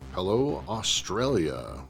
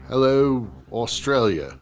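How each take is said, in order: First: It is said in the speaker's natural accent. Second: It is said in a put-on Australian accent.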